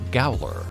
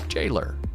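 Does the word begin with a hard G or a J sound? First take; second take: hard G; J sound. First: It begins with a hard g sound. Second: It begins with a j sound. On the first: The speaker calls it wrong. "My Midwestern mind pronounces G A O L E R as Gowler" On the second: The speaker calls it right. "So I'll pronounce it correctly this time"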